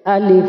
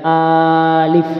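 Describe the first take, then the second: First: The first vowel is held short. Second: The first vowel is held long. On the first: The speaker calls it right. "dibaca pendek" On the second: The speaker calls it wrong. "jangan alif"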